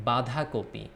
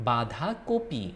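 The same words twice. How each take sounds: The two takes are said the same way.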